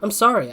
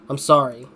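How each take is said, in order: First: It is said in a put-on woman's voice. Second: It is said in the speaker's own voice.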